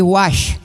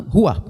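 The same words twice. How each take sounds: First: "ruach" with the ch said as sh, like ruash; mispronounced "ruach", sh ending; wrong pronunciation. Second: "ruach" with a guttural h-like r and a breathy end, like huah; correct Hebrew pronunciation. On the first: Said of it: "Aí seria a pronúncia errada". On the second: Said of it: "não, ruach". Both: Shown as a demonstration.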